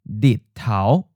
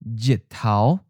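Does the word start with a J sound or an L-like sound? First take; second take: L sound; J sound. First: The word begins with an L-like sound. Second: The word begins with a J sound. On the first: This is the form used in the Haikou dialect group. "instead of Jitao for sun, you have Ditao" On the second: This is the traditional form found in all dialects. "So the J sound like J. For example, the sun"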